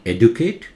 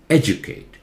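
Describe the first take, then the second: First: The stress is not on the first syllable. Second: The stress falls on the first syllable. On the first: The speaker calls it wrong. "It's not educate" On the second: The speaker calls it right. "Edu louder"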